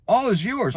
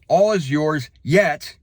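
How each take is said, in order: First: "All is yours." tossed off higher, skipping past yet; rushed reading. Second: Said in the usual way. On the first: Shown as a demonstration. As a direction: hurry through "All is yours." as if done. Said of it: "Slow down". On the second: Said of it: "I'm quoting now".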